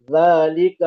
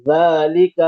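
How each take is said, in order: First: ذالک with a soft th sound, tongue tip showing; the thin, correct ذالک; ذالک as dhalik, thin not thick; correct soft dhaal. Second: ذالک with a plain hard z, said loud; the students' thick mistake on ذالک; ذالک mispronounced as zalik; wrong thick zaal. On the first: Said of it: "موٹی نہیں ہوگی". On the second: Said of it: "اکثر طلبہ موٹی کر رہے ہیں". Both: Shown as a demonstration.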